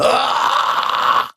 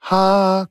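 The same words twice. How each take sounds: First: Harsh, distorted held "ah"; sustained metal-style distorted vowel; vocal distortion. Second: Higher, clean held "ah"; pure tone. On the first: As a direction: corrupt the "ah" into an unpitched rasp. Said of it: "le signal est corrompu". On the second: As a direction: sustain "ah" on a clear undistorted note. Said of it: "une source pure". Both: Shown as a demonstration.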